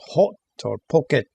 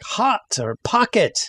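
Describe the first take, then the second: First: The vowel is a rounded 'oh' sound. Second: The vowel is an open 'ah' sound. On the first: The speaker calls it wrong. "instead of saying hot or pocket" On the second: The speaker calls it right. "It's not oh, ah, octopus, as in like hot or pocket"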